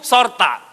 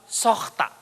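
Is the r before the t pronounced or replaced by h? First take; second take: pronounced; replaced by h. First: The r before the t is clearly pronounced. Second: The r before the t becomes an h sound. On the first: "Nama ibuku Sorta" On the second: "Kalau orang Dolok Sanggul akan bilang Sohta"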